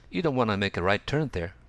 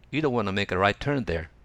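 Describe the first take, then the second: Both takes have the same delivery.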